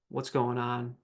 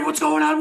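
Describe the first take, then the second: First: The voice sounds slow, steady and calm. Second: The voice sounds hurried, anxious and frantic. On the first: The injured person is helped to communicate clearly. The speaker calls it right. "that tone in your voice" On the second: The injured person is made more stressed. The speaker calls it wrong. "that stresses me out"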